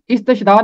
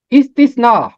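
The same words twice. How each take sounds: First: इस्तशना with sh in place of s, is-tash-na; wrong pronunciation. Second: इस्तिस्ना with a clear s in the middle, is-tis-na; correct pronunciation. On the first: Teacher quoting how many people mispronounce it. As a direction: say इस्तशना with a sh, the common mistake. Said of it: "ये शीन नहीं है, स है". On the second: Teacher naming the next book, said correctly. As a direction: announce इस्तिस्ना crisply, stressing the s. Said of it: "इसका तलफ़ुज़ इस्तशना नहीं है". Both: Shown as a demonstration.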